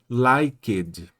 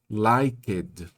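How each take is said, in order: The two takes are said the same way.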